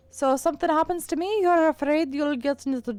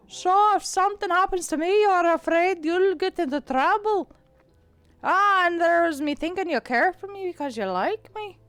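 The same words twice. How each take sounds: First: Put-on fading Irish accent. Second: Out of the side of the mouth, rolling the R's; Irish accent, side of the mouth. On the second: Acted. Cat teasing Kara about her duty of care, Irish accent. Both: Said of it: "I'm losing my Irish".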